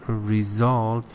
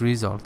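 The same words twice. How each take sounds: First: The stress is on the second syllable. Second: The stress is on the first syllable. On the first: The speaker calls it right. "the stress is on result. The second syllable" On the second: The speaker calls it wrong. "you said result"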